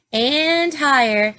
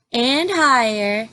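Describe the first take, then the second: No difference in how they are said.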